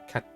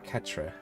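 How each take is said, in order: First: The final 'tre' sound is dropped entirely. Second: The final 'tre' sound is fully pronounced. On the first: The speaker calls it right. "It's spelled that, but isn't it just pronounced cat?" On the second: The speaker calls it wrong. "It's not quatre"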